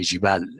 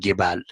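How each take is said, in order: First: The word begins with a j sound. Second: The word begins with a hard g sound. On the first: "they will not say jibal" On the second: "They say gebal"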